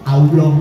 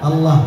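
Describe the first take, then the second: First: The word is said with rounded, moving lips. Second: The word is said with still, unrounded lips. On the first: The speaker calls it wrong. "Nyebutnya masih banyak yang salah" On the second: The speaker calls it right. "Allah itu hurufnya di di lidah"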